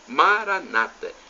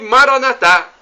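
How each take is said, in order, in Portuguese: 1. A tônica está na penúltima sílaba. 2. A tônica está na última sílaba. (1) "com a tônica na penúltima sílaba" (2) "nós pronunciamos assim, com a tônica na última sílaba"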